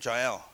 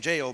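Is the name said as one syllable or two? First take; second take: two; one. First: The name is said as two syllables. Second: The name is said as one syllable. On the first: The speaker calls it right. "Because it's Jah, Jehovah, El" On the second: The speaker calls it wrong. "don't say it like that"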